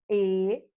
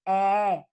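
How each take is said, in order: First: The vowel is said with the mouth nearly closed. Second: The vowel is said with the mouth wide open. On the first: "vamos utilizar com as vogais fechadas" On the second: "quando tiver o som da vogal aberta"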